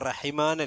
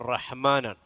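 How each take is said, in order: First: A vowel is inserted between h and m. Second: The h is unvoweled, directly followed by m. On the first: The speaker calls it wrong. "റഹിമാൻ അല്ല" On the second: The speaker calls it right. "ഹാ സുക്കൂനായിട്ട് തന്നെ പറയണം"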